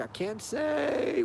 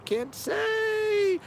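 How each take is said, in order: First: Much softer, slow, tight-lipped; lightly voiced cagey cop; hushed evasive officer. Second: Much higher, soft, slow, in a put-on voice; mock cop refusing to answer; squeaky mock officer. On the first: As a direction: hush it and drag it out, giving nothing away. Imitating Hendrix dodging the question. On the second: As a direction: squeak it out coyly like a cop keeping a secret. Mock Hendrix repeats the refusal.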